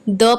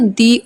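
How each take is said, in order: First: The vowel is a short, neutral 'uh'. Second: The vowel is a long 'ee'. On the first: The speaker calls it wrong. "द pronounce नहीं करेंगे" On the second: The speaker calls it right. "दी pronounce करेंगे क्योंकि other में ओ vowel है"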